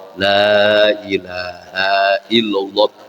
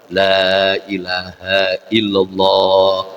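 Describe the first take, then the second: Both takes have the same delivery.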